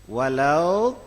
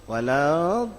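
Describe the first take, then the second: No difference in how they are said.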